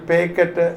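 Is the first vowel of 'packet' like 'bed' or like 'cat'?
bed. The first vowel is closer, like in 'bed'. This is how many people in another region say it. "Kozhikode പോയി കഴിഞ്ഞാൽ പേക്കറ്റ് എന്നായിരിക്കും പലരും പറയുന്നതും"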